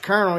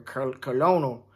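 First: It is said with an R sound, like kernel. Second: It is said as spelled, like colon-el. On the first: "it ain't got no R in it" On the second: "That sounds like a ass procedure"

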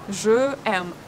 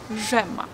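First: The vowel of je is kept before aime. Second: The vowel of je is dropped before aime. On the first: The speaker calls it wrong. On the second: The speaker calls it right.

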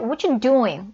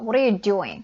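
First: 'Are' is dropped and 'what you' blends into 'chu'. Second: Every word is said, including 'are'. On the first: "이렇게 줄여서 많이 얘기합니다. ... 추로 들리죠" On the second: "문법상 여기 아가 있어야 되죠"

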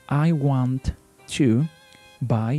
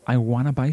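First: Want and to are said as separate words. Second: Want and to blend into one word, wanna. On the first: "That is the way we are going to pronounce it, because we are not native speakers" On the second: "So they link the sounds of want and to, and they say wanna"

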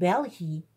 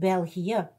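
First: The i and e merge into one sound. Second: The i and e are pronounced as separate sounds. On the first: The speaker calls it wrong. "maar het is niet België" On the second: The speaker calls it right. "het is België"

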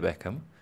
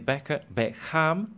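First: The second syllable is reduced to a schwa. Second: The second syllable has a full vowel. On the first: The speaker calls it right. "you say Beckham" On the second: The speaker calls it wrong. "you don't say Beckham"

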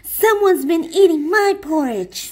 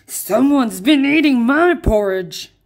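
First: It is said in Mama Bear's voice. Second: It is said in Papa Bear's growling voice.

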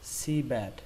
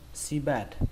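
First: The first syllable is stressed and lengthened. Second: Both syllables are said evenly, without stress. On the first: "Nếu như các bạn đọc có trọng âm thì các bạn chọn trọng âm đầu tiên" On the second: "chúng ta không cần trọng âm nữa, chúng ta đọc ngang luôn"

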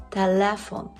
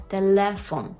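The two takes are said the same way.

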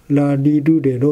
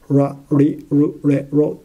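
First: The syllables begin with an L sound. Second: The syllables begin with an R sound. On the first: "L で発音しても" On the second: "R で発音しても"

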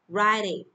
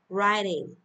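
Both takes have the same delivery.

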